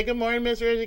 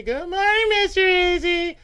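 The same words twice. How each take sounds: First: Said in the usual way. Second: Chorus greeting. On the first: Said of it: "Everybody say". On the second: Retold or imitated. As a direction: sing it like the whole office greeting him. Coworkers greeting him.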